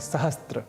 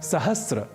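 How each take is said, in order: First: A 't' sound comes before the final 'r'. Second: No 't' sound comes before the final 'r'. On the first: The speaker calls it wrong. "जबकि यह अशुद्ध है" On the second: The speaker calls it right. "सहस्र यह शब्द ही सर्वथा शुद्ध है"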